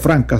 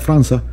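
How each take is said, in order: First: The middle consonant is a hard k sound. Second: The middle consonant is a soft s sound. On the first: The speaker calls it wrong. "no se pronuncia Franca" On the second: The speaker calls it right. "se pronuncia Franza, porque es en portugués"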